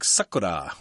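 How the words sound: It is said with a Japanese-style pronunciation. "in Japanese it's more like"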